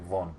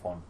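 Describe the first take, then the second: First: The word begins with a V sound. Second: The word begins with an F sound. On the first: This is how everyone else says it. "Everyone else in Germany say von" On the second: This is the speaker's own way of saying it. "it's an F. ... but I say von"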